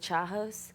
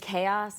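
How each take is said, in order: First: The word starts with a ch sound. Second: The word starts with a hard k sound. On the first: The speaker calls it wrong. "I think Chajos" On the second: The speaker calls it right. "every time someone says chaos"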